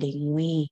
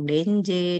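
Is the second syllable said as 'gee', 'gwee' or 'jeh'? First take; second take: gwee; jeh. First: The second syllable sounds like 'gwee'. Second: The second syllable sounds like 'jeh'. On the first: This follows the original African language. "pengucapannya yang paling benar sesuai bahasa Afrika adalah dengwi" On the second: This is a common acceptable variant. "no problem kalau ada yang bilang denje"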